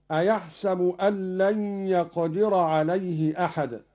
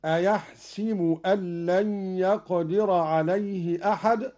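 First: أيحسب said "a-yahsabu"; fatha on sin. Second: أيحسب said "a-yahsibu"; kasra on sin. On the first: Teacher citing the verse, أيحسب with "sa". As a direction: give the س of أيحسب an a. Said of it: "بكسر السين". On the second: Teacher showing Qalun's reading, أيحسب with "si". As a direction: give the س of أيحسب an i. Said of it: "بكسر السين في الكلمتين". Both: Shown as a demonstration.

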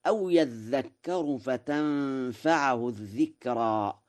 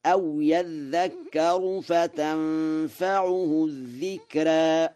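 First: Said in the usual way. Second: فتنفعه with a u on ع and the final vowel of الذكرى tilted toward e; slow, higher chant of فتنفعه الذكرى; Warsh reading, recited. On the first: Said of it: "قرأ ورش". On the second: Shown as a demonstration. Quran teacher chanting the Warsh reading. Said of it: "وله التقليل في الذكرى فيقرأ هكذا".

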